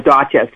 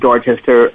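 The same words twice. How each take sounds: First: The name is said in a local Boston accent. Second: The name is said in a general accent.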